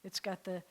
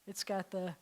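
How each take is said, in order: Both takes have the same delivery.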